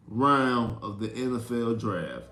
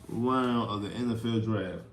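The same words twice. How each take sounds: The two takes are said the same way.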